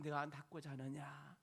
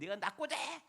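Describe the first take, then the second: First: It is said gently and warmly. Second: It is said angrily.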